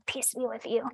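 It is muttered under the breath.

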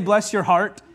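It is said sarcastically and insincerely.

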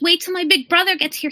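It is said in a put-on character voice.

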